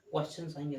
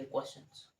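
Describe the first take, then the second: First: Said in the usual way. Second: Whispered repeat. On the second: Shown as a demonstration. Teacher echoes "questions" to students, whispered. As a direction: whisper "questions" softly as an echo.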